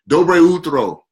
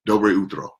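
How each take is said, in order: First: It is said slowly. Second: It is said at normal speed.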